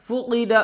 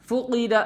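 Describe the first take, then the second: No difference in how they are said.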